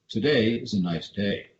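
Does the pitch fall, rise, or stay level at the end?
fall. The pitch falls at the end. "with down inflection ... I go down at the end of it"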